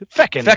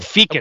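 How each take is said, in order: First: The first syllable has a short vowel, like 'feck'. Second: The first syllable has a long vowel, like 'fee'. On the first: The speaker calls it right. "It's fecund" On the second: The speaker calls it wrong. "Not fecund. Okay. Fecund sounds like feces"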